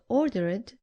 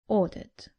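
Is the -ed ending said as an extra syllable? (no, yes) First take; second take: yes; no. First: The ending is an extra 'id' syllable. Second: The ending adds no extra syllable. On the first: The speaker calls it wrong. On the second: The speaker calls it right.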